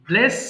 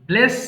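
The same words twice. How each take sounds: No difference in how they are said.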